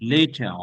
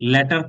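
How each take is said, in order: First: The first vowel is long, like in 'late'. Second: The first vowel is short, like in 'let'. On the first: The speaker calls it right. "এটা লেই" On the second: The speaker calls it wrong. "লেটার কেউ বলবেন না"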